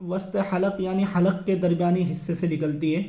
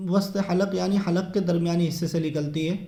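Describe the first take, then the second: No difference in how they are said.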